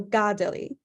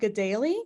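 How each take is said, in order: First: The stress is on the first syllable. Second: The stress is not on the first syllable. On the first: This follows the accents of the name in Mohawk. "emphasis on the first syllable instead" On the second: This is how the home community says it. "I pronounce it Gedali because that's how the community that I was in pronounced it"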